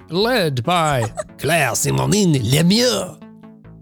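It is read with a put-on French accent.

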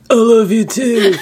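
It is said in a put-on body voice.

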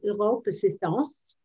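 The name is said with a French-style pronunciation. This is the pronunciation the company required.

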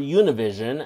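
The name has an anglicized English pronunciation.

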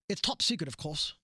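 It is said in a British accent.

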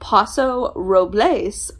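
The name is said with Spanish-style sounds. This is the original-language form, rarely used locally. "which is the Spanish pronunciation"

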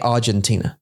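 It is said with an English pronunciation. "that's how we say it here in the UK"

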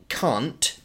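It is said in a British accent. "can't in yeah. British English"

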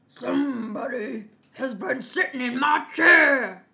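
The voice is deep, rough and gruff. A big father figure is speaking. "in his great rough gruff voice"

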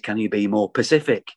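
The last word begins with a p sound. The speaker calls it right. "everybody in Manchester, for some reason, says"

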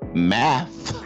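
The word ends with a th sound. "Instead of saying math"

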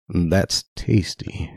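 It is said in a creepy, sultry tone. The speaker calls it right.

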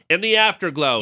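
It is said in a put-on imitation voice.

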